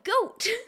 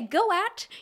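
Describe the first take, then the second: First: It is said as one single syllable. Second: It is split into two separate syllables. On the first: The speaker calls it right. "you say goat" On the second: The speaker calls it wrong. "You don't say go at"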